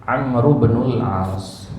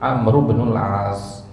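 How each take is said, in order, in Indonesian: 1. Kata-katanya disambung dan huruf i dihilangkan. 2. Kata-katanya disambung dan huruf i dihilangkan.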